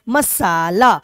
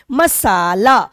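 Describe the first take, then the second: First: मसाला said again, सा stressed; second मसाला, सा firm. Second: मसाला loud, with सा pushed; मसाला with weight on सा; stress on सा. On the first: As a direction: repeat मसाला leaning on सा. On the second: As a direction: punch the सा of मसाला. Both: Shown as a demonstration. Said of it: "म ला की अपेक्षा सा पे ज्यादा बल दे रहे हैं".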